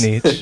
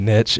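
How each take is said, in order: First: It is said the fancier-sounding way. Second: It is said the plainer, Texan-sounding way. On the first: "You're so fancy" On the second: "I say niche. It just sounds more Texan"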